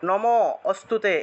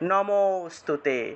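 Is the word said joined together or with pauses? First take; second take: paused; joined. First: It is broken up with a pause after nama. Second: It is said smoothly as one word. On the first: The speaker calls it wrong. "এইভাবে থেমে থেমে উচ্চারণ করা যাবে না" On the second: The speaker calls it right. "একসাথে বলতে হবে"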